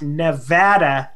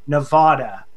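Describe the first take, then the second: First: It uses the pronunciation locals use. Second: It uses a pronunciation locals do not use. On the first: This is how residents say the state's name. The speaker calls it right. "we are pronounced Nevada" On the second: This is how non-residents say the state's name. The speaker calls it wrong. "not Nevada"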